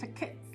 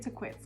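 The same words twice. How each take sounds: First: The name is pronounced with Spanish sounds. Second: The name is pronounced with English sounds. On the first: "how you would say it in Spanish" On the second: "because it just sounds cool"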